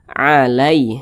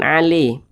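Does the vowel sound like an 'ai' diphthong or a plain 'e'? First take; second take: ai diphthong; plain e. First: The vowel is a soft 'ai' glide. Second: The vowel is a flat 'e' sound. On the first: The speaker calls it right. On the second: The speaker calls it wrong. "jangan ale"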